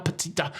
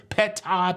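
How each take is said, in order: First: "peta" softly, first vowel swallowed, p'-tah; trying another pronunciation. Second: "peta" as two clear syllables, PET-AH; trying a pronunciation. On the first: Host unsure of P E T T A, "peta" softly squashed to p'tah. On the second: Host wondering how to say P E T T A, "peta" as clear pet-ah. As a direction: sound out "peta" as pet-AH, both parts distinct. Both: Shown as a demonstration. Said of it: "How do you say P E T T A?".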